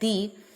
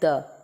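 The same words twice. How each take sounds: First: The vowel is long, like 'thee'. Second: The vowel is short, like 'thuh'. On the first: The next word begins with a vowel sound. "If the word that comes after the begins with vowel sound, then the is pronounced like the" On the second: The next word begins with a consonant sound. "begins with a consonant sound, then the is pronounced like the"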